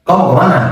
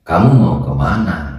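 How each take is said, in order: First: "Kamu kemana?" cepat dengan nada naik; tanya cepat dan tinggi. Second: "Kamu mau kemana?" diucapkan lebih rendah dan pelan; tanya tenang dan perlahan. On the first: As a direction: desak dengan tempo cepat. ("Kamu kemana?" cepat, nada tinggi) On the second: ("Kamu mau kemana?" nada rendah, tempo lambat) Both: Shown as a demonstration. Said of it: "Beda dengan".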